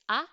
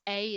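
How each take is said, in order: First: The vowel is clipped short. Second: The vowel is drawn out long. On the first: The speaker calls it right. "the A sound in French is, is, is short" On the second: The speaker calls it wrong. "it's not A"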